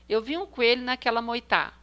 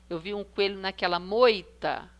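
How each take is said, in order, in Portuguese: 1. A última palavra tem o acento na última sílaba. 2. A última palavra tem o acento na primeira sílaba. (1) "Primeiro a última" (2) "moi é a penúltima"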